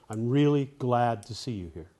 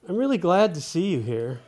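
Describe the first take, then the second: First: The sentence sounds settled and finished. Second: The sentence sounds unsettled, as if more follows.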